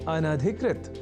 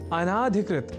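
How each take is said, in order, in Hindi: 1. 'an' के बाद का स्वर ह्रस्व है। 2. 'an' के बाद का स्वर दीर्घ है। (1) "यह शब्द अनधिकृत इस रूप में ही है सर्वथा शुद्ध" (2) "न केवल लिखने की ही अपितु बोलने की भी प्रवृत्ति या कुप्रवृत्ति"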